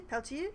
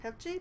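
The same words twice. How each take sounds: First: "Pelchi" with a hard t sound, PEL-tee; "Pelchi" tried as PEL-tee, a questioning rise; other pronunciation. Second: "Pelchi" with a soft sh sound, PEL-shee; "Pelchi" tried as PEL-shee, a questioning rise; trying a pronunciation. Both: Shown as a demonstration. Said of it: "not sure which way to pronounce that J".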